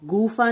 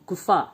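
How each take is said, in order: First: The u vowel is drawn out long. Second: The u vowel is kept short. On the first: The speaker calls it wrong. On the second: The speaker calls it right.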